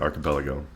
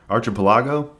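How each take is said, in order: First: The first syllable sounds like 'ark'. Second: The first syllable sounds like 'arch'. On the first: The speaker calls it right. "So that's the way you say it" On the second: The speaker calls it wrong. "Arch. ... I hope I didn't say it that way"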